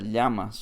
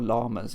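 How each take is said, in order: First: The word is pronounced the Spanish way. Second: The word is pronounced the English way.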